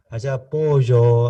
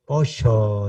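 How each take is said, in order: First: "pollo" with a clear y sound, Mexican style. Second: "Pollo" with a sh sound, /posho/; Argentine pollo. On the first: A Mexican speaker showing how he says "pollo". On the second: A speaker imitating how Argentines say "Pollo". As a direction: say "Pollo" the Buenos Aires way, /posho/. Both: Shown as a demonstration. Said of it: "dice pollo".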